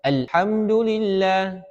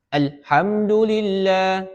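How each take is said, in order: No difference in how they are said.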